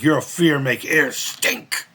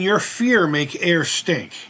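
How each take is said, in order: First: Put-on slow, lightly accented Sato line; mimicked Sato accent. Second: Put-on slow, lightly done Japanese accent as Sato; mimicked Sato accent. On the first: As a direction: stretch each word in a mild Japanese accent. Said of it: "And he'd be like". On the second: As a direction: drag it out like the villain Sato, mildly. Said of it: "mimicking Sato in, in an accent".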